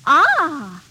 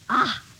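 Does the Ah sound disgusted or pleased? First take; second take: pleased; disgusted. First: It sounds pleased. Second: It sounds disgusted.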